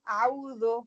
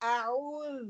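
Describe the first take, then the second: First: The word ends in an o sound. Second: The word ends in a short u sound. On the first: The speaker calls it wrong. "जो गलत तरीका हम पढ़ते हैं" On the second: The speaker calls it right. "अब ये राइट तरीका पढ़ने का क्या है"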